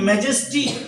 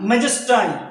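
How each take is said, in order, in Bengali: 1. শেষ সিলেবলটি 'ee' ধ্বনি দিয়ে শেষ হয়। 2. শেষ সিলেবলটি 'eye' ধ্বনি দিয়ে শেষ হয়।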